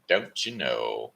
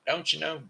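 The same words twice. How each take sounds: First: Low slow echo. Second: Higher, bouncy teasing question; playful high tease. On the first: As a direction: lower and slow, drawn-out answer to itself. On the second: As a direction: toss it up high like a playful jab. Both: Acted. Repeats tag question two ways.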